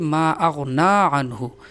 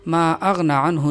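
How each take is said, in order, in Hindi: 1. 'n' के बाद का स्वर लंबा किया जाता है। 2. 'n' के बाद का स्वर छोटा है। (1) "अलिफ की तरह लंबा करके पढ़ेंगे" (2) "नहीं"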